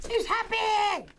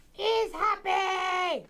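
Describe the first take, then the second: First: Excited. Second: High, stretched shout of joy; drawn-out shout. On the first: Excited about balloon. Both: Real, not acted.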